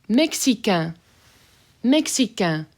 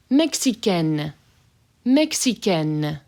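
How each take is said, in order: First: Mexicain closing on a nasal vowel, no N; nasal ending. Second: Mexicaine slow with a hard final N. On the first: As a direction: leave the N off Mexicain. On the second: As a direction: hit the N at the end of Mexicaine. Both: Shown as a demonstration. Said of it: "So that hard N there".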